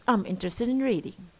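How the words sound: The voice falls at the end.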